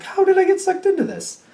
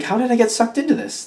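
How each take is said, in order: First: Very high, held-up mock wail; high-pitched disbelief. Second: Higher-pitched, put-upon question; mock disbelief. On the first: Reader repeats the roped-in person's complaint, high mock disbelief. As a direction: push the question way up high in disbelief. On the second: Reader voices someone roped into helping, mock disbelief. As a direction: ask it as if mildly put out.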